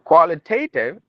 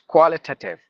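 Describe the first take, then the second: First: The t near the end carries a full te vowel. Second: The t near the end is a plain t sound. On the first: The speaker calls it wrong. "instead of telling qualitative" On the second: The speaker calls it right. "it is qualitative. T. Instead of te, t"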